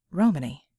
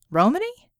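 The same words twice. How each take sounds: First: Said in the usual way. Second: Romany rising sharply, higher and louder; Romany as a startled double take; surprised question. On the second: A narrator's reading. Red hearing a curse in Romany, surprised. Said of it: "Where had she learned that one?".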